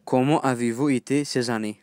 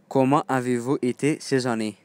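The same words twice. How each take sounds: The two takes are said the same way.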